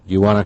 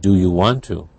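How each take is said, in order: First: 'Want to' is reduced and blended into 'wanna'. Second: 'Want to' is said fully as two words. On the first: "if you hear" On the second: "You would choose"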